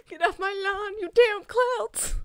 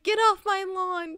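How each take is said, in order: First: Hammed-up old-man yell, high and slowing down; grumpy old man. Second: Lightly voiced old man shouting, drawn out; mock-yell like a cranky old man; grumpy old man. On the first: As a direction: play the cranky old man through laughter, stretching the end. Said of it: "imagining it with clouds instead of kids". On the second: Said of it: "the old man being like".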